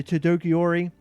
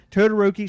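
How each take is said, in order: First: Todoroki garbled as "tutokiori"; mispronounced name. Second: Todoroki said as "toh-doh-roh-kee"; corrected name. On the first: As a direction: Todoroki said wrong, syllables scrambled. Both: Real, not acted. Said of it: "Sorry for me scrambling the name".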